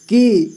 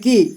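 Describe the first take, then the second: First: The vowel is held out for longer. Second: The vowel is said quickly and briefly. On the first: "ज़्यादा देर तक इसका उच्चारण करना है" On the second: "कम समय में की"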